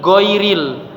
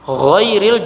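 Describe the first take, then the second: First: It begins with a hard g sound. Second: It begins with a soft throaty gh sound. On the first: The speaker calls it wrong. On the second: The speaker calls it right.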